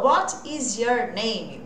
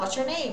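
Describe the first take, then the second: First: What is is said as two full words. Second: What is is contracted into one syllable. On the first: The speaker calls it wrong. "A fala não é assim" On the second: The speaker calls it right. "E sim"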